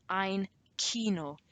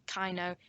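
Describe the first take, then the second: First: Kino said slowly as KEE-no; long ee in Kino, never eye; correct pronunciation. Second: Kino misread as KAI-no; wrong pronunciation. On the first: Teacher giving the right version, ein Kino as KEE-no. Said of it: "That's how you pronounce Kino". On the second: Teacher warning what it's not, Kino wrongly as KAI-no. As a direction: say Kino to rhyme with rhino. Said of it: "it's not Kino". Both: Shown as a demonstration.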